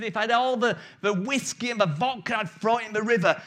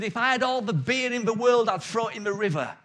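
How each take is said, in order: First: Excited preacher. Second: Ranting temperance preacher. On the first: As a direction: build to the peak of the sermon, spitting mad. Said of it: "he's getting really excited". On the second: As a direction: preach against the beer with mild pulpit fervour. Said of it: "he was preaching, and he said". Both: Retold or imitated.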